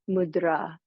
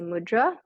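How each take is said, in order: First: The final vowel is long. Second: The final vowel is short. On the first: This is the proper Sanskrit way of saying it. "the proper pronunciation in Sanskrit, it's mudra" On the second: This is the easier English way of saying it. "it's just easier as an English speaker to say mudra"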